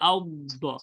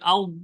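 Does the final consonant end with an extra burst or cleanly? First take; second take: extra burst; cleanly. First: The final consonant is released with an extra burst. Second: The final consonant stops cleanly with no extra sound. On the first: The speaker calls it wrong. "আর আপনারটা এমন হচ্ছে আউ দ ... এই ছুটতেছে কেন?" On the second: The speaker calls it right. "দেখেন আমি যখন করতেছি আউ, আর কোনো আওয়াজ নাই।"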